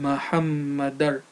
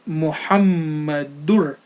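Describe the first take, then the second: First: The last syllable has an 'a' vowel. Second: The last syllable has an 'u' vowel. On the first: The speaker calls it wrong. "and not Muhammadar" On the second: The speaker calls it right. "So it's Muhammadur"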